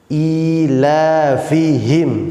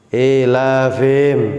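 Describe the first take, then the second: First: The middle h sound is clearly pronounced. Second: The middle h sound is left out. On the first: The speaker calls it right. "tampakkan, nabrohkan, hentakkan di pada huruf h" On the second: The speaker calls it wrong. "seringkali e, berbunyi seperti ini"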